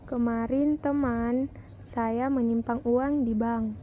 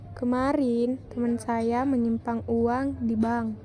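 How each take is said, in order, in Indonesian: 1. Kata teman mendapat tekanan. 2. Kata kemarin mendapat tekanan. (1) "Pada kalimat kedua mendapat tekanan pada kata teman" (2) "pada kalimat pertama mendapat tekanan pada kata kemarin"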